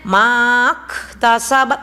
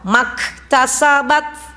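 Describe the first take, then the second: First: The first vowel is held long. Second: The first vowel is kept short. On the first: The speaker calls it wrong. "Jadi bukan begini bacanya" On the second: The speaker calls it right. "dianggap pendek"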